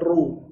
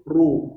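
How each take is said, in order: First: The vowel is said with unrounded lips. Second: The vowel is said with rounded, pushed-out lips. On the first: The speaker calls it wrong. "jangan ru" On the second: The speaker calls it right. "tapi ru, monyong saja"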